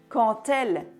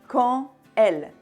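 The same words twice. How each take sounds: First: The final consonant of quand links into elle. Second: The words are separate, with no linking consonant. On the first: "comme on fait une liaison" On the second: "Si on prononce les mots séparément"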